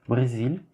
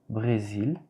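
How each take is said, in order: The two takes are said the same way.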